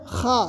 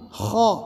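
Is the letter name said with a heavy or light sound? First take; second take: light; heavy. First: The sound is thin and light. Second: The sound is thick and heavy. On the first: The speaker calls it wrong. "इसको खा नहीं" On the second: The speaker calls it right. "मोटा पढ़ा"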